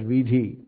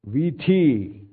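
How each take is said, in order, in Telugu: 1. మధ్య హల్లు aspirated d శబ్దం. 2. మధ్య హల్లు ఆస్పిరేటెడ్ t శబ్దం. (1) "they are starting pronouncing it as vidhi" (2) "they stopped pronouncing it as tha"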